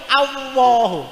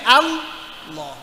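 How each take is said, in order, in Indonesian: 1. Kata ini diakhiri dengan bunyi w tambahan. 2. Kata ini diakhiri dengan bunyi h di akhir. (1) "sing paling salah niku Allahu pakai wow" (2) "sing paling bener kudune Allah"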